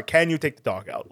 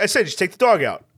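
First: Said in the usual way. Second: Put-on quick, insistent Queens accent; impatient imitated New York accent. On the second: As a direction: repeat it briskly in New York speech. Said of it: "that accent is also buried deep".

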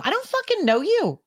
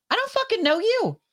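First: Irritated rant. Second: Very high, heated tell-off; furious very high-pitched dismissal; angry rant. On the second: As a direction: spit it at a stranger who won't quit. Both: Real, not acted. Ranting about callers.

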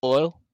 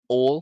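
First: Said in the usual way. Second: Loud "Ole" for oil, glide deleted; mock-Southern "Ole" in place of oil; Southern oil imitation. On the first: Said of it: "delete the fucking I". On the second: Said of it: "delete the fucking I and".

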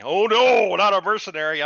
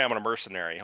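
First: High, loud faked gasp of horror; mocking characters' horror, high and loud; mock shock. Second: Said in the usual way. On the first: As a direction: ham up fake outrage.

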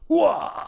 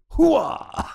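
First: High Pacino shout; Al Pacino impression. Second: Al Pacino impression. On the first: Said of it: "he's like". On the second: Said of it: "that's what he says". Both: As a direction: bark it like Pacino waking.

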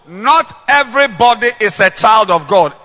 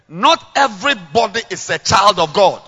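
First: Voices chanting in unison; man and woman together. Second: Preaching. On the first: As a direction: say it as one crowd. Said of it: "Let's say together, one go". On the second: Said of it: "Let's say together". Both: Shown as a demonstration.

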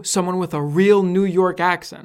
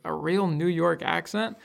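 First: Put-on "real New York accent" stated emphatically with a falling end; retold tourist remark. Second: Put-on "real New York accent" slower, rising to a question; slow query, "accent" turned upward; questioning echo. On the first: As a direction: land "real" firmly, then let "accent" fall. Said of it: "and they said, Oh man". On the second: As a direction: echo it back, lifting "accent" at the end. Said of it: "And I'm like".

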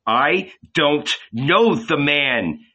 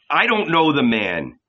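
First: Slow, higher pleading denial; desperate cry. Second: Higher cursing denial; shouting. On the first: Peter denying Jesus a second time, slow and desperate. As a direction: deny it again, drawn out. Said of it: "Peter cried once more". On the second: Peter cursing at the Levites, higher angry denial. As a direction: spit out the denial. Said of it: "he shouted". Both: A narrator's reading.

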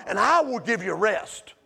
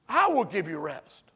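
First: Lower, steady "And I will give you rest"; quoted promise. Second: Soft echo. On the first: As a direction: say it as a calm promise. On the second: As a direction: lower and softer "I will give you rest", let it settle. Preacher echoes the promise softer. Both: Acted.

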